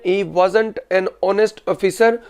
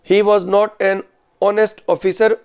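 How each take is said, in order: First: Was not is contracted into one word. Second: Was not is said as two full words. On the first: This is the spoken style. "सिर्फ वाज नॉट को contract कर दिया" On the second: This is the written style. "ये written English में।"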